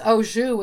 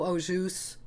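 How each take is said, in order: First: The word ends without an S sound. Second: The word ends with a slight S sound. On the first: This is the technically correct form. "it is au jus, as you said, but technically" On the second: This is a common, accepted variant. "you can say it with a little bit of the S"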